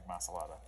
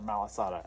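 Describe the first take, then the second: First: The s sound comes before the l sound. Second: The l sound comes before the s sound. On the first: The speaker calls it wrong. "I've been pronouncing it wrongly" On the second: The speaker calls it right. "as my kids say. Oh, it is Malasada"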